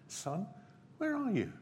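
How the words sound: It is said in a gentle, inviting tone.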